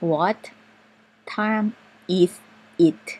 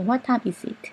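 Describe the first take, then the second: First: It is spoken at a normal, careful pace. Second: It is spoken fast, with is and it linked. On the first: "ปกติจะเป็น" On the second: "เวลาฝรั่งเขาพูดเร็วๆก็จะเป็น"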